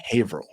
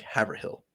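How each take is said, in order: First: Haverhill said Hay-vrul, hill swallowed; local pronunciation. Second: Haverhill said Haver-hill, every letter; spelled-out reading. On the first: Host giving the real Massachusetts Haverhill. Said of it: "No, no". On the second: Host giving the spelling-based guess for Haverhill. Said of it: "it's spelled H A V E R". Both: Shown as a demonstration.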